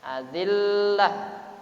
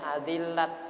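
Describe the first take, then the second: First: The word ends with an h sound. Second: The word ends with a t sound. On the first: The speaker calls it right. "diganti jadi hak" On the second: The speaker calls it wrong. "tidak boleh"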